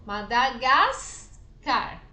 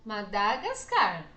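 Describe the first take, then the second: First: "Madagascar" with GAS loud and drawn out; slow "Madagascar", punching the second-to-last syllable, GAS; "Madagascar" stressed as Madagáscar, on GAS. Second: "Madagascar" with the final CAR stressed; "Madagascar" stressed at the end, madagasCAR. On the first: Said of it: "Como a gente pronuncia?". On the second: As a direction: say "Madagascar" leaning on its last syllable, CAR. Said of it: "Qual é a pronúncia?". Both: Shown as a demonstration.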